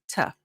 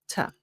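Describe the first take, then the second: First: The word has a short reduced uh vowel. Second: The same.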